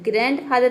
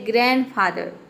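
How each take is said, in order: First: The d sound is clearly pronounced. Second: The d sound is left silent. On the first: The speaker calls it wrong. "ग्रैंडफादर नहीं होता है" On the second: The speaker calls it right. "ये होता है ग्रैंडफादर"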